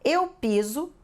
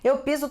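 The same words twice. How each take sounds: First: It is said at a normal, careful pace. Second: It is said at a very fast pace.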